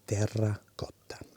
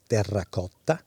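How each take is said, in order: First: The word is said softly with an Italian pronunciation. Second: The word is said with an English pronunciation. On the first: The speaker calls it right. "Softly pronounced terracotta" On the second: The speaker calls it wrong. "is probably not the way one should pronounce terracotta"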